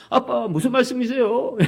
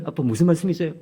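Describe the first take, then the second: First: Higher, slow, drawn-out bewildered question; 말씀이세요 drawn out with a rising baffled tone; baffled teen. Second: Said in the usual way. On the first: Retold or imitated. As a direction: stretch 말씀이세요 out in disbelief. Son's puzzled question repeated.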